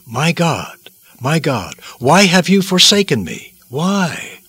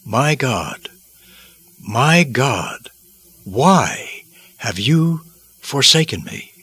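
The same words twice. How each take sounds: First: A desperate cry of abandonment, pitched high; anguished cry. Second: Slow, hushed cry of anguish. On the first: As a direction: break out in anguish on the second call. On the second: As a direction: utter it slowly as if in agony. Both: Acted. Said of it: "caused him to utter these unforgettable words".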